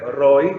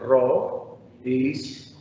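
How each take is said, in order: First: The vowels blend into one syllable. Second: The vowels are split into two syllables. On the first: The speaker calls it wrong. "ya no puedo leer Roy" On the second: The speaker calls it right. "sino que tengo que leer Ro, is"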